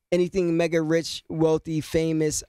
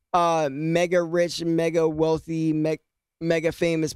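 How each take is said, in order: First: Said in the usual way. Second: Talking through hiccups; words broken by hiccups. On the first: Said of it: "Pardon me". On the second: Real, not acted. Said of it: "I got the hiccups".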